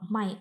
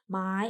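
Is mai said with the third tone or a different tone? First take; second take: different tone; third tone. First: The word is said with a different tone. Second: The word is said with the third tone. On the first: It means to sell. "Kalau mai artinya menjual" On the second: It means to buy. "Kalau nada tiga, mai artinya membeli"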